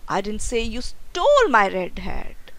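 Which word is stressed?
stole. The stress is on the word stole.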